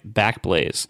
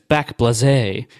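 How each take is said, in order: First: The name is said in a plain, ordinary way. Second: The name is said in a fancier, put-on way.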